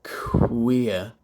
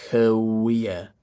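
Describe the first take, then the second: First: "queer" with k released straight into w; unvoiced puff of kw, then voice "queer"; "queer" with no uh after the k; rounded k onset. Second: "queer" slowly as kuh-oo-eer; wrong-way "queer", voicing straight after the k; split onset. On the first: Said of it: "don't phonate until my lips are in the w position". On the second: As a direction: put a voiced uh between k and w in "queer". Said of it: "I'm not going queer". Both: Shown as a demonstration.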